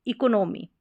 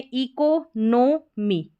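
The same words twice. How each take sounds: First: Said in the usual way. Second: economy split as ee-ko, no, mee; broken into parts. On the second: Shown as a demonstration. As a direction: sound out economy piece by piece. (Economy को टुकड़ों में तोड़कर) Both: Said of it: "हमारा spelling pattern है शुरू में".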